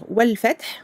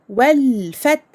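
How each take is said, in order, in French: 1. Le son 'l' est prononcé rapidement. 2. Le son 'l' est tenu pendant un certain temps. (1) "Nous ne devons pas passer trop vite sur cette lettre... au lieu de dire wal fath" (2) "nous allons dire wal fath"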